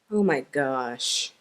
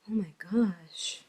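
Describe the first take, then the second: First: It is said in an angry tone. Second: It is said in a sad tone. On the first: The speaker is upset with something. "if we're angry" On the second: The speaker feels sorrow about something. "if we're sad"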